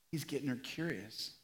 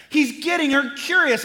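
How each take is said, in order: First: He's getting her curious said very softly and low; almost under the breath; near-whispered repeat of the line; hushed. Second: He's getting her curious said loud and high, stress on curious; raised preacher's emphasis on curious; loud emphatic. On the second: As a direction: proclaim it from the pulpit. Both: Shown as a demonstration.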